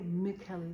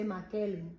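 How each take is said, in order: First: The name is said with an English sound. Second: The name is said with a Spanish sound.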